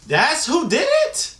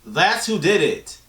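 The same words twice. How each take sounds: First: "that's who did it?" with a rising question tune; asking in disbelief. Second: "That's who did it." with a falling, settled tune; stating it firmly. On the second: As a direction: drop down on "did it." as a flat conclusion. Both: Real, not acted.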